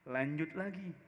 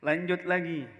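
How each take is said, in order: First: Said in the usual way. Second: Said again with more force and volume; pushed louder. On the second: Shown as a demonstration. Preacher pressing the congregation on, louder. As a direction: urge the story onward, louder.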